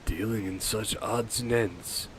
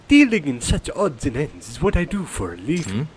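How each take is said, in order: First: It is said in his normal voice. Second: It is said in a Mario impression.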